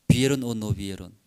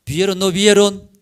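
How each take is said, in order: First: Said in the usual way. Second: Louder, higher demand for an answer; emphatic, challenging repeat of the question; insistent question. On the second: Real, not acted. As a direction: press the congregation with a raised voice.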